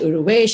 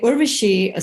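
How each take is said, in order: First: The name has an extra middle vowel and ends 'esh'. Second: The name has no extra vowel and ends 'ashi'. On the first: This is how other people mangled the name. The speaker calls it wrong. "Uruvesh, and I hated it because Urvesh is a boy's name" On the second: This is the speaker's real name. The speaker calls it right. "But anyway, Urvashi"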